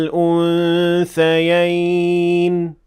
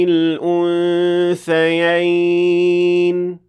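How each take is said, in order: Both takes have the same delivery.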